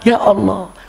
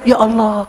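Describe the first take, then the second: First: It is said in a puzzled way. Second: It is said in a startled way.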